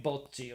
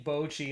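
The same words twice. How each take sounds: First: "bocce" as "bot-chi", pure o and held stop; Japanese pronunciation. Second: "bocce" said "BOH-chee", gliding oh; American pronunciation. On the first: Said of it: "like it is in Japanese". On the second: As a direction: say "bocce" American-style with long oh. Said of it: "in my American accent". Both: Shown as a demonstration.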